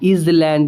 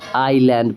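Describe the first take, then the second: First: The word is said with an s sound. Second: The word is said without an s sound. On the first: The speaker calls it wrong. "इज़लैंड नहीं पढ़ेंगे" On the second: The speaker calls it right. "आईलैंड पढ़ेंगे"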